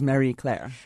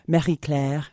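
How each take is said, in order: First: The name has a partly anglicized French pronunciation. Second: The name has a fully French pronunciation. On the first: "somewhat like a bastardized version of the French word" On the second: "In France, it would be"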